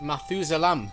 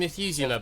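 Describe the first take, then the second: First: The word has a Dutch or Flemish pronunciation. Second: The word has a standard English pronunciation. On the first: This is how the sellers said the name. "they said ... must be the Dutch ... pronunciation" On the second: This is the usual form of the name. "it is"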